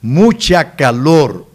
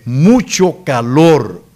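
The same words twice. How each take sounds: First: Mucha calor said slowly, mucha stressed; the wrong way: mucha calor; wrong form. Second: Mucho calor slowly with mucho stressed; the correction, slow and clear; correct form stressed. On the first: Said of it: "No se dice mucha calor". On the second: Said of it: "se dice mucho calor". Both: Shown as a demonstration.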